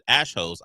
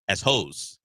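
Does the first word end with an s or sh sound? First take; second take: sh; s. First: The first word ends with a sh sound. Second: The first word ends with an s sound. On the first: "He calls it ash hose" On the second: "I said as hose because A S"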